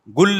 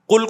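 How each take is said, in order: First: The word begins with a g sound. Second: The word begins with a hard k sound. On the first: This is how people in Saudi Arabia say it now. "गुल कहते हैं" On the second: This is the classical form of the word. "कुल को क्या कहते हैं?"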